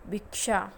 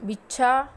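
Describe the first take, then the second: First: भिक्षा said correctly; correct pronunciation. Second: भिक्षा as "भिछा", louder; भिक्षा as the wrong example; wrong pronunciation. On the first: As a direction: give भिक्षा its क्ष cluster, falling tone. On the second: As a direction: say भिक्षा with छ instead of क्ष. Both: Shown as a demonstration. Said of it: "छ लिखना है या क्ष लिखना है".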